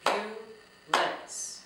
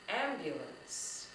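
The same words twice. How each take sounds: First: "Ambulance" in three loud, widely spaced beats; very slow syllables. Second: Said in the usual way. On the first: Shown as a demonstration. Teacher clapping out syllables with children, "Ambulance" said very slowly and loudly. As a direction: break "Ambulance" slowly into syllables, pausing after each. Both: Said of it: "say ambulance very slowly".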